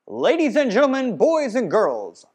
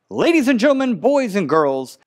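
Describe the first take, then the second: First: The voice sounds distant with more room sound. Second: The voice sounds close with little room sound. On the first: "You may be able to hear the room a little more or feel that I feel a little more distant" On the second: "You may hear the room a little less in this mic. The mic's closer to my mouth"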